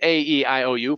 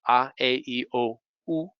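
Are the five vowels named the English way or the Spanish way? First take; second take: English; Spanish. First: The vowels are said as English letter names. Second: The vowels are said as Spanish vowel sounds. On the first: "In English, we start out with" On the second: "in Spanish, you have five vowel sounds"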